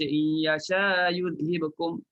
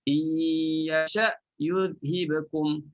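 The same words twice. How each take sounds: First: The glottal stop after yasha is not clearly closed. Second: The glottal stop after yasha is firmly closed. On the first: The speaker calls it wrong. "Tak boleh baca ... Salah" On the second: The speaker calls it right. "Matikan betul-betul hamzah"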